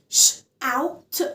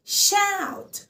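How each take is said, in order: First: "out" after a separate sh, final t set apart; sound by sound. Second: Said in the usual way. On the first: Shown as a demonstration. Teacher splits the word for learners, sound by sound. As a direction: break shout into "ش", ow, t. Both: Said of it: "فأنا مقسمة مقاطع".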